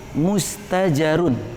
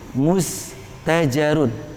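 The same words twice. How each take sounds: First: The word ends with the full '-un' ending. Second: The same.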